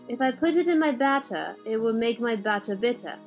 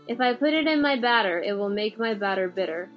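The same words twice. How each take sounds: First: It is said in a British accent. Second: It is said in an American accent.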